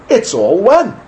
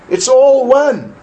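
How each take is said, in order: First: It is said in a mocking, sarcastic tone. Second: It is said in a plain, sincere tone. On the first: The speaker is mocking the idea. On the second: The speaker means it seriously.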